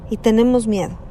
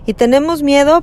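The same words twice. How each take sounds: First: Said in the usual way. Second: Miedo pushed higher and louder, rising at the end; a raised, insistent repeat; emphatic. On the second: Shown as a demonstration. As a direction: lift Y tenemos miedo with a louder rise on miedo. Repeats phrase, builds.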